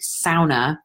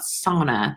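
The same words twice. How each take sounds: First: The word is said with its Finnish pronunciation. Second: The word is said with the common English pronunciation. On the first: The speaker calls it right. "That's how it's pronounced, by the way. It's the only Finnish word in the English dictionary" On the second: The speaker calls it wrong. "not sauna"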